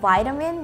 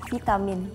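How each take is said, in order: First: The first vowel sounds like 'eye'. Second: The first vowel sounds like 'ee'. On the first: The speaker calls it wrong. "it's not like vitamin" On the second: The speaker calls it right. "we pronounce I as like E"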